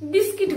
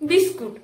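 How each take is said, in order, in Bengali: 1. দ্বিতীয় স্বরধ্বনিটি 'i'-এর মতো শোনায়। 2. দ্বিতীয় স্বরধ্বনিটি 'u'-এর মতো শোনায়। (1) "আমরা বিস্কিট বলি না" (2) "আমরা বলি"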